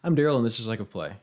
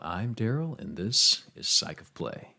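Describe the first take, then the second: First: It is said in a plain everyday voice. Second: It is said in a played-up performance voice.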